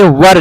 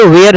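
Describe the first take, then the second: First: वर with no "ay" glide before the r; correct "were". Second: वेयर with a long "ay" vowel before the r; mispronounced "were". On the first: Teacher correcting how students read it, वर with a short vowel. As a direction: say वर, one syllable with a short neutral vowel. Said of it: "उच्चारण भी सही करिए". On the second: Teacher showing students the misreading, वेयर with an "ay" vowel. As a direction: say वेयर, two syllables like "wear". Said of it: "आ, वेयर पढ़ाते हैं". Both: Shown as a demonstration.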